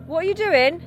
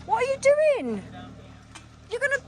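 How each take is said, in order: First: High alarmed shout at the driver; alarmed yell. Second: Very high terrified cry; terrified shriek. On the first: Scared passenger yelling at driver. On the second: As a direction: shriek it as the car tips. Jeep tipping, passenger terrified. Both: Real, not acted.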